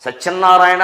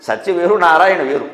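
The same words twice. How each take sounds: First: సత్యనారాయణ said as one word with nn in the middle; wrongly doubled n. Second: సత్య and నారాయణ said apart, single n; separated words. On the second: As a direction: split సత్య from నారాయణ without doubling the n. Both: Shown as a demonstration. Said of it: "నా కింద నా ఒత్తి పెట్టి".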